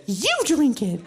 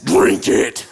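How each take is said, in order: First: Higher-pitched imitation of a bold friend; defiant comeback. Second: Loud, harsh growled command; aggressive monster voice. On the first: American friend pushing back at the monster, defiant. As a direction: toss the order right back, voice pitched up. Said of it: "Sarah's American. And she has much bigger balls". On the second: Retold or imitated. Masked monster forcing a glass on Sarah, aggressive growl. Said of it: "with an aggressive voice says".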